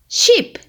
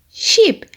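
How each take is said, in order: The two takes are said the same way.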